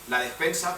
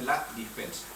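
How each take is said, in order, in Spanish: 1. La primera vocal de la palabra es e. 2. La primera vocal de la palabra es i.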